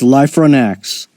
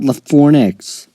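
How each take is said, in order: First: The name begins with a long 'life' sound. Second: The name begins with a short 'la' sound. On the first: The speaker calls it right. "It's Life Run X" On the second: The speaker calls it wrong. "It's not LaFornix"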